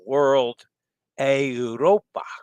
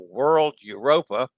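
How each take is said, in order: First: Europa is said with an Italian pronunciation. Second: Europa is said with an American pronunciation. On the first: "which would be more of the Italian pronunciation" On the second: "the slang American, uh, e e uh, pronunciation"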